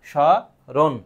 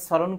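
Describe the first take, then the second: First: স, রণ sounded out as "sho... ron"; two separate syllables, "sho", then "ron", for স, রণ; SH-sound pronunciation. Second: স্মরণ said as "soron", opening on S; mispronunciation with S. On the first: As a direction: split স and রণ with a pause, SH at the start. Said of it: "উচ্চারণের ক্ষেত্রে". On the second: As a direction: demonstrate স্মরণ with S instead of SH. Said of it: "এইভাবে তো হবে না". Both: Shown as a demonstration.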